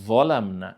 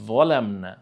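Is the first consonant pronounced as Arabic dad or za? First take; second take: za; za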